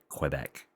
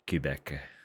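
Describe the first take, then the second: First: The first consonant sounds hard and rural. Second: The first consonant sounds soft, not hard. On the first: The speaker calls it wrong. "the hard Quebec, as though I'm living on a country road somewhere" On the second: The speaker calls it right. "they're a lot more like Quebec"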